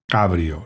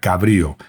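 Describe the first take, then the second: First: The stress falls on the first syllable. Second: The stress falls on the second syllable. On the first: A convertible car. "sin acento en la i" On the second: Something relating to goats. "eso sería cabrío"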